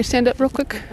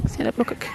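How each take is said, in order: First: Said in the usual way. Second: Unvoiced, much softer whisper; whispered repeat. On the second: Real, not acted. Mom repeats to her son in a whisper. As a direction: whisper it close to him.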